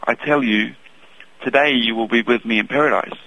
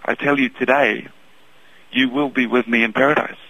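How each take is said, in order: First: The pause comes right after 'I tell you'. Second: The pause comes right after 'today'.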